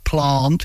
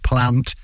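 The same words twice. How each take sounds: First: It is said in a posh accent. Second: It is said in a plain, non-posh accent. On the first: "I do have to put on a little bit of a posh accent" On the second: "instead of"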